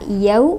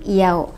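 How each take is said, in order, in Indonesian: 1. Vokalnya meluncur penuh dari a ke u. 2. Vokalnya tereduksi, tidak meluncur penuh. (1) "melafalkan kata yau" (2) "menjadi yau, ... tidak sempurna"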